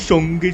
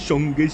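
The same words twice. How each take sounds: The two takes are said the same way.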